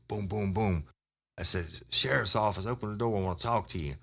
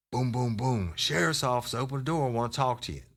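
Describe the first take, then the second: First: Lightly acted officer announcing himself at a door; officer calling out. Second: Higher-pitched repeat of a police door call; re-enacted sheriff demanding an open door; insistent officer call. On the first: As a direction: call it out like a retold police knock. Acting out his first police knock. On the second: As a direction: call out again, pitched well up and urgent. Repeats the knock, more insistent.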